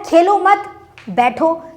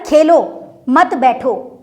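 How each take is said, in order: First: There is a pause after the second word. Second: There is a pause after the first word.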